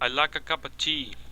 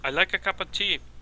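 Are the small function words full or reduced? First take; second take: reduced; reduced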